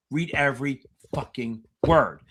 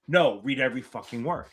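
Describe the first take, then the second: First: Insistent coach repeating; stressed repetition. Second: Firm repeated command; stressed instruction. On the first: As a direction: lean on every and stretch the word. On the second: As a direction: read EVERY word, stress on every. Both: Shown as a demonstration. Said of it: "I can't stress this enough".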